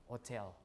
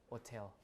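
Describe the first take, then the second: No difference in how they are said.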